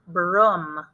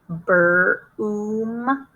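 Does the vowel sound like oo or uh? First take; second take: uh; oo. First: The vowel is a short uh sound. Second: The vowel is a long oo sound. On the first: "Try it with the uh sound" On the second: "Try it with the oo sound"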